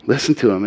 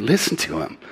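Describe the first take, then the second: First: To leaned on in Listen to him, at normal level; stress on to. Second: Listen said soft with the stress on Listen; soft urging. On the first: Preacher repeating the command, stress on to. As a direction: press the word to. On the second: Preacher urging the congregation, soft stress on Listen. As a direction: lay the weight on Listen, quietly. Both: Shown as a demonstration.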